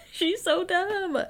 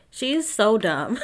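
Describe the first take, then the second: First: High, drawn-out squeal through laughter; slow, high-pitched giggly exasperation; laughing disbelief. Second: Slow, emphatic verdict; slow and weighty, fed up; drawn-out exasperation. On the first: Repeats it high while laughing. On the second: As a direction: stretch it out in disbelief. Exasperated verdict, first plain take. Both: Real, not acted.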